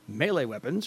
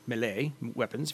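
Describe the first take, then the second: First: Melee is given an ordinary English pronunciation. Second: Melee is given a French-style pronunciation.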